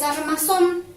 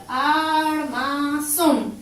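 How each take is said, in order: First: Said in the usual way. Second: "Armazón" very slowly as AR, MA, ZÓN; each syllable of "Armazón" drawn out, landing on ZÓN; split into syllables. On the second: Shown as a demonstration. (armazón separado en sílabas, muy lento) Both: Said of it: "Separamos en sílaba".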